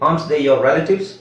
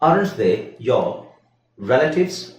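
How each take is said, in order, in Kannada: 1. aren't ಪದವನ್ನು 'ant' ಎಂದು ಚಿಕ್ಕದಾಗಿ ಹೇಳಲಾಗುತ್ತದೆ. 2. aren't ಪದವನ್ನು ಪೂರ್ತಿಯಾಗಿ ಹೇಳಲಾಗುತ್ತದೆ.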